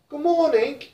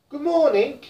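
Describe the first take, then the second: First: It is said in a British accent. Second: It is said in a British accent.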